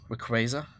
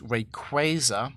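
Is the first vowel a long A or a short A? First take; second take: short A; long A. First: The first vowel is a short A. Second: The first vowel is a long A. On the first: "with like sh- a short A" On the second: "long A might actually be correct"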